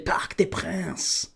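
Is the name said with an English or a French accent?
French. The name is said with a French accent. The speaker calls it right. "You've got to say Parc des Princes"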